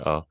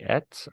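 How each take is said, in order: First: The word is pronounced reduced, almost absorbed. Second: The word is pronounced in full, clearly. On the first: The speaker calls it right. "I say at" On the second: The speaker calls it wrong. "I don't even say at"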